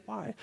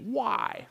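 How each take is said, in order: First: Said in the usual way. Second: Higher-pitched, resentful "why"; bad attitude. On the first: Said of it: "there's a good attitude". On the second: Shown as a demonstration. Preacher contrasting good and bad attitudes, bad-attitude questioning. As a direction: put pushback into the one word. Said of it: "there's a bad attitude".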